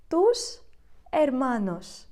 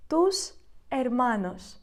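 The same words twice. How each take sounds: First: Said in the usual way. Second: «Tus hermanos» said slowly, each syllable clear; slow repeat. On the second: Shown as a demonstration. Teacher repeating the phrase for students, slow and clear.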